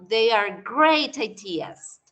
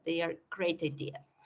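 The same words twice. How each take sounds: First: Each word spaced out slowly for learners; slow clear model sentence. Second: Said in the usual way. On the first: Shown as a demonstration. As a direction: say it slowly so students follow. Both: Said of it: "Yo puedo decir".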